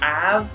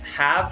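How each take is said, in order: First: The word starts without any h sound. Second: The word starts with a clear h sound. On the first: "do I say av, or am I doing a Cockney accent" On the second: "if I say have"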